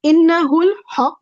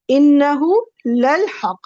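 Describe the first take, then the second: First: Innahul haq without the lam, read out clearly; plain innahul haq. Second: Innahu lal haq with the lam sounded clearly; with the added lam. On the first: Teacher reads the single emphasis, innahul haq, plainly. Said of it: "What's the difference between these two?". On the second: Teacher reads the ayah with the extra lam. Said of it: "Only this lam, only this lam is additional". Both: Shown as a demonstration.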